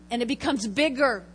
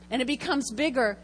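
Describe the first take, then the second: No difference in how they are said.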